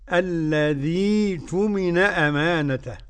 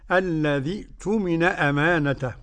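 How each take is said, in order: First: The ya vowel is held extra long. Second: The ya vowel has its normal length. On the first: "لازم تمد الياء" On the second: "بدون مد في الياء"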